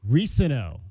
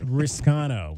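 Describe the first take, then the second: First: The name has no k sound in it. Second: The name has a k sound before the n. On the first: The speaker calls it right. "we now know for positive it is Kedrick Risano" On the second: The speaker calls it wrong. "and not Riscano"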